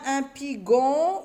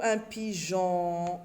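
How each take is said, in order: First: PIGON drawn out with a hard g; wrong hard g. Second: PIGEON drawn out with a zh sound, "pijon"; correct soft g. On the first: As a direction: say "pigon" slowly, g as in "gare". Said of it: "Non, un pigeon". (« pigon » étiré, avec un g dur) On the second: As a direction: say "pigeon" slowly, soft g like a French j. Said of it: "pour lire J". (« pigeon » étiré, prononcé « pijon ») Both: Shown as a demonstration.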